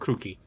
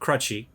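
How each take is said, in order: First: The name has an Eastern European k sound. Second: The name has a plain English ch sound. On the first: "I've kind of given it like a weird Eastern European thing" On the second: "if you go standard English pronunciation"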